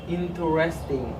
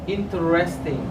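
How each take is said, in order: Both takes have the same delivery.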